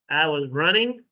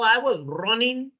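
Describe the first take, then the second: First: The ending of running is a full ng sound. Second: The ending of running is a plain n sound. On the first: The speaker calls it right. "You have to pronounce the ing" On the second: The speaker calls it wrong. "We cannot say"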